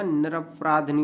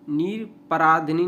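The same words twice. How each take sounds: First: निरपराधनी with no इ before नी; correct pronunciation. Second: निरपराधनी with an extra इ before नी; wrong pronunciation. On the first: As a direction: join ध straight to नी in निरपराधनी. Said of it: "निरपराधनी होता है". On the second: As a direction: say निर-पराधिनी, vowel after ध. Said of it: "निरपराधनी नहीं होता". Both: Shown as a demonstration.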